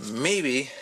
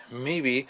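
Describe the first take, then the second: No difference in how they are said.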